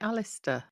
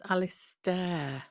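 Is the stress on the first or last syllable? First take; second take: first; last. First: The stress is on the first syllable. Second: The stress is on the last syllable. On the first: This is the usual way to say the name. "She doesn't say Alistair" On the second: This is how one particular person says the name. "she says stare"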